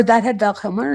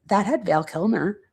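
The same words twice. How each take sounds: First: "That" hit first and harder, ending on a rise; stress on THAT. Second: "had" given the weight; stress on HAD. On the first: Rereading Travis's line another way, stress on "That". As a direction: open firmly on "That", lift at the end. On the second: Reading Travis's line one possible way, stress on "had". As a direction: lean on "had" in "That had Val Kilmer". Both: Retold or imitated.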